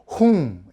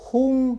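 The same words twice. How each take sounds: First: The initial h sound is strong and doubled. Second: The initial h sound is plain and light. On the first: The speaker calls it right. "이렇게 발음을 하라고" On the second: The speaker calls it wrong. "그냥 홍"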